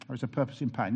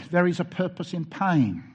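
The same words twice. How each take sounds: First: Said in the usual way. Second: "there is a purpose in pain" declared louder, hitting "there"; emphatic. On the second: Shown as a demonstration. Preacher announces his third point to the congregation, emphatic and loud. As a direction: proclaim it as the headline.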